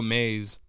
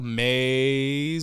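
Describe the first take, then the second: First: The vowel is short and said plainly. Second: The vowel is stretched out long and dramatic. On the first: It is just the plain name. "or do they just go" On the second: It plays on the band's spelling with three A's. "do they go like"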